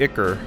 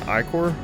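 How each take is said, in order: First: The word rhymes with 'ticker'. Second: The word does not rhyme with 'ticker'. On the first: The speaker calls it right. "But I'm guessing ichor" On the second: The speaker calls it wrong. "I've always pronounced like that since I was a kid"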